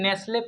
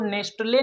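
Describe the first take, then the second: First: The t sound is silent in the middle. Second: The t sound is pronounced in the middle. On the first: The speaker calls it right. "टी silent है चूंकि" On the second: The speaker calls it wrong. "नहीं पढ़ेंगे"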